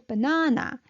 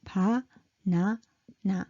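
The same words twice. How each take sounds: First: "banana" with a long, stressed middle syllable; English stress on "banana": ba-NA-na; second-syllable stress. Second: "pa, na, na" in three equal, separate beats; evenly timed, unstressed "pa, na, na"; equal time. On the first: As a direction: lean on the NA in "banana". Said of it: "you gotta stress". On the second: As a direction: give each of "pa, na, na" the same length. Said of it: "equal time". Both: Shown as a demonstration.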